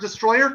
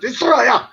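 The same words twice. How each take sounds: First: It is said like the ordinary English word. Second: It is said in an altered, unusual way. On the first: The speaker calls it wrong. "you can't pronounce it destroyer because Toho tried to copyright the word destroyer" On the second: The speaker calls it right. "so they now pronounce it destroyer"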